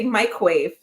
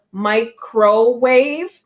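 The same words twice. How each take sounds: First: MICROWAVE squeezed to two syllables, "my-quave"; own shortened pronunciation. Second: MICROWAVE slowly in three clear syllables; careful, drawn-out MICROWAVE with the "cro" sounded; full pronunciation. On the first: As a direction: say MICROWAVE as "mike-wave", middle syllable swallowed. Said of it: "I say microwave". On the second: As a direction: say "mi-cro-wave", every syllable spelled out. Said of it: "there's a lot of syllables there". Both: Shown as a demonstration.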